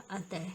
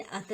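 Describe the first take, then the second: First: अतः with breathed final h, atah; correct pronunciation. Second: अत ending bare on t; wrong pronunciation. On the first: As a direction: sound the visarga ending of अतः. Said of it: "विसर्ग की अशुद्धियाँ". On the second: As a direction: stop अत at the t, no breath. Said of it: "नहीं होता". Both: Shown as a demonstration.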